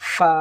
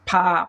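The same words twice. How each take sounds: First: The f is made with teeth on lower lip. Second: The f is made with both lips together. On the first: The speaker calls it right. "দুই দাঁত নিচের ঠোঁটের পেটের সঙ্গে লাগিয়ে দিলি" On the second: The speaker calls it wrong. "দুই ঠোঁট মিলিয়ে দেই। কিন্তু এটা ভুল হবে।"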